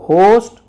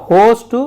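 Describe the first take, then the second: No difference in how they are said.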